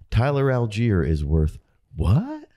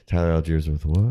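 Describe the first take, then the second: First: The pitch rises at the end. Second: The pitch falls at the end. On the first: The speaker is excited about him. "I think you can go up inflection with that" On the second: The speaker is not excited about him. "If the tone goes down, you're not excited about it"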